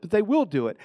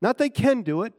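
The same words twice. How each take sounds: First: Will pressed as the certain one; stress on will. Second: Can do it said as the weaker option; stress on can. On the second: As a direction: lean on can to set it against will. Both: Shown as a demonstration.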